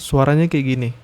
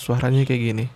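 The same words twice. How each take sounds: First: Background noise is reduced by noise reduction. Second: Background noise like birds and fan is audible. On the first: "ini kalau pakai noise reduction dari si Soundtek dua titik satu" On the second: "Ini suara asli dari mikrofon Soundtek dua titik satu tanpa filter apapun"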